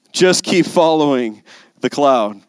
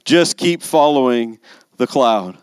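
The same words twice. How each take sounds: First: Slow, firmer repeat with weight on "Just"; stronger repeat. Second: Said in the usual way. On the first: Shown as a demonstration. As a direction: lean into "Just" as you say it again. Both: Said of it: "repeated for emphasis".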